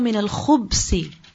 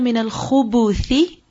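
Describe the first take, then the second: First: No vowel follows the b. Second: A short u vowel follows the b. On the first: "another pronunciation of this dua" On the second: "khubuth with a dhamma on the ba"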